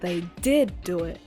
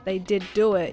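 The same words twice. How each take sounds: First: One word is said with strong emphasis. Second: The words are said evenly, without special emphasis. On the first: "It's just an emphasis" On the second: "rather than saying"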